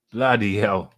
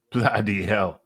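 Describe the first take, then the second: No difference in how they are said.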